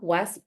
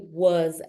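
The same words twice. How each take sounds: First: The word ends with a hard s sound. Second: The word ends with a soft z sound. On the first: The speaker calls it wrong. "we say was" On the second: The speaker calls it right. "it should be very soft and like a z"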